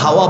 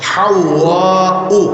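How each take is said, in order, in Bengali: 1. নামটি সহজভাবে খোলা a ধ্বনিতে শেষ হয়। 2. নামটি গ্লটাল স্টপ ও u দিয়ে শেষ হয়। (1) "আমরা হাওয়া বলি" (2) "শব্দটা আরবিতে উচ্চারণ হলো"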